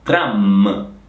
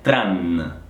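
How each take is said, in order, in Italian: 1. La parola termina con un suono m. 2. La parola termina con un suono n. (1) "è tram, m" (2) "Attenzione alla M finale, non è tran"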